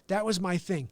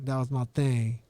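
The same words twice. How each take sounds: First: It is said in a plain reading voice. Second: It is said in a put-on tough-guy voice.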